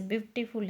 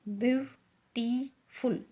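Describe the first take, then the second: First: Said in the usual way. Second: "beautiful" in three slow, separated syllables. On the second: Shown as a demonstration. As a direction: break "beautiful" into byu, tee, ful with gaps. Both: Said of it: "तीन है इसके अंदर syllable".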